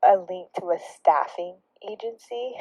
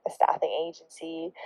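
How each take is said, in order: First: Said in the usual way. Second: Unvoiced aside, can't believe it; incredulous whisper. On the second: Real, not acted. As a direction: whisper it in disbelief. Whispered repeat in disbelief.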